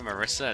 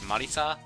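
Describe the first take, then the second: First: The name is said with an English pronunciation. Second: The name is said with a Japanese pronunciation. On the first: "It's just easier for me to say Marissa" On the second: "I can pronounce things the Japanese way"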